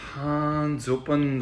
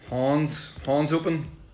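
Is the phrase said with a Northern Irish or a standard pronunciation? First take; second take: standard; Northern Irish. First: It is said with a standard pronunciation. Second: It is said with a Northern Irish pronunciation.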